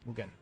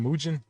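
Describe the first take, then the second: First: It is said with a Japanese-style pronunciation. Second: It is said with an English-style pronunciation. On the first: This is the original Japanese way to say it. The speaker calls it right. "if it's supposed to be Japanese, it's Mugen" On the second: This is how the speaker used to say it. The speaker calls it wrong. "I used to call Mugen Mugen"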